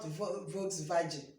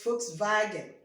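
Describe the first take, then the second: First: The word begins with a v sound. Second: The word begins with an f sound. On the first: The speaker calls it wrong. "not Volkswagen" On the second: The speaker calls it right. "Remember how we pronounce Volkswagen, usually like F"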